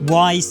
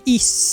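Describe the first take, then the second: First: The name sounds like the word 'wise'. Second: The name sounds like the word 'east'. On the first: This pronunciation follows the current spelling. "I'm going to go back to pronouncing it Wise, seeing as that's how they spell it" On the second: This is the original, intended pronunciation. "you're actually supposed to pronounce it East as in the old way"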